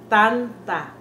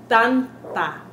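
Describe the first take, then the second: The two takes are said the same way.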